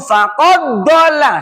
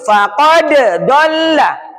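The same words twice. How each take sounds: First: The d runs straight into the next word. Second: The d is bounced separately before the next word. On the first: The speaker calls it wrong. "Jangan langsung faqad dhalla, salah" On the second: The speaker calls it right. "Ini dikolkolakan dulu"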